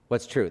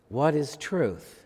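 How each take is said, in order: First: It is asked in a cynical, dismissive tone. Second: It is asked in a sincere, searching tone. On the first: The asker doubts there is any answer worth seeking. "Or was it more of a cynical response?" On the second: The asker genuinely wants to know the answer. "Was he a sincere seeker?"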